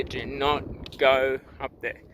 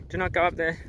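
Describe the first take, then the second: First: Each word slow and deliberate, "go" falling; slow sign reading. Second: "up" lifted, said quicker and higher; quick higher repeat. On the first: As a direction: read "Do not go up there" slowly, weighing every word. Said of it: "it clearly says here". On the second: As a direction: toss off "Do not go up there" lightly and higher. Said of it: "Here it says". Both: Shown as a demonstration.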